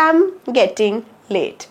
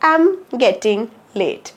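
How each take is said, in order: First: The opening 'I' is dropped or swallowed. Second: The opening 'I' is dropped or swallowed.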